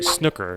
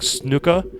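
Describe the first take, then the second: First: It is said with an American pronunciation. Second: It is said with a non-American pronunciation. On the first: The speaker calls it wrong. "that's how people in the United States pronounce it" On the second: The speaker calls it right. "officially it's supposed to be like snooker"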